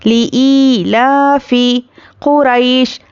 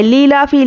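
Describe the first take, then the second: First: ली ई लाफी कुरैश drawn out slowly, ई held long; slow Quran recitation. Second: ली लाफी clipped short, the wrong way; wrong reading shown. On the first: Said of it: "अच्छे से अदा करना है". (धीमी तजवीद से ली ई लाफी कुरैश) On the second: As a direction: show the mistake ली लाफी quickly. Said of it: "ली लाफी नहीं पढ़ना है इसको". (गलत उच्चारण ली लाफी) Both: Shown as a demonstration.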